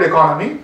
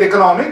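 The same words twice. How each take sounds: First: Economy said as e-CO-no-my, stress on the second syllable; economy with the beat on CO, a lower voice; correct stress on economy. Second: Economy said as eco-NO-my, stress on the third syllable; the Indian-English economy with the beat on NO; wrong stress on economy. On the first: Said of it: "call it economy". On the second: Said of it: "Don't go, say it economy". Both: Shown as a demonstration.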